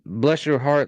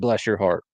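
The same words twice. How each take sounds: First: It sounds condescending, as if to someone simple. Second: It sounds sincere and warm.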